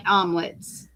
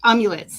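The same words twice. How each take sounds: First: Amulets said as ahm-lets, dropping the yu sound; mispronounced amulets. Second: Amulets said fully as am-yuh-lits; corrected amulets. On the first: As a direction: amulets slurred to two syllables, ahm-lets. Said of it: "Amulets, sorry". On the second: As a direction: amulets said carefully as am-yoo-lets. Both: Real, not acted.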